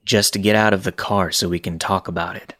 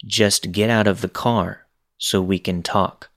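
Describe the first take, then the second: First: Flat calm voice. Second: Monotone. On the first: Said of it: "He says flatly". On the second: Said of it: "in that monotone voice". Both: Retold or imitated.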